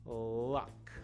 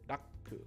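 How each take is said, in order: First: It starts with a clear L, tongue centered. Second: It starts with a D-like sound, tongue raised. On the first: The speaker calls it right. "And then we have luck" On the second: The speaker calls it wrong. "not daku, daku, daku in Japanese"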